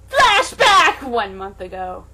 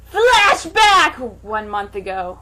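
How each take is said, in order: Both takes have the same delivery.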